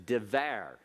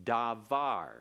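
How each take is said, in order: First: Devar with a short first vowel, tə-VAR; construct form devar. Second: Davar with full a vowels, da-VAR; absolute form davar. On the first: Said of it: "Notice we're used to seeing davar". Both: Shown as a demonstration.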